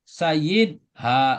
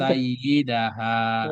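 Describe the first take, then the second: First: The word is split with a break before 'ha'. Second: The word is said joined without any break. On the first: The speaker calls it wrong. "nggak boleh sayyid ha nggak boleh" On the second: The speaker calls it right. "Jadi harus disambung"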